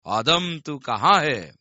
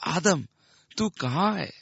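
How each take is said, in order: First: It is said in a harsh, threatening growl. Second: It is said in a grieving, broken-hearted moan.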